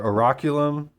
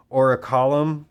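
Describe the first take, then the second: First: Oraculum said as or-uh-KYUH-lum, with a y sound; second try at the name. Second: Oraculum said as or-uh-KAH-lum, no y sound; first try at the name. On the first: Vlogger unsure of the name switches Oraculum to or-uh-KYUH-lum. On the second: Vlogger unsure of the name tries Oraculum as or-uh-KAH-lum. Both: Shown as a demonstration. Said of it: "I'm not sure how you pronounce it".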